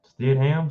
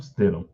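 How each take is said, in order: First: Stidham as STID-HAM, higher pitched; Stidham, unsure, second syllable fully voiced; questioning pronunciation. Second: Stidham as STID-um, falling; Stidham, low and final, second syllable swallowed; settled pronunciation. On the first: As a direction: try out Stidham with a full "ham". Trying out an unfamiliar surname. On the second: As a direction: settle on Stidham with a reduced ending. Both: Shown as a demonstration.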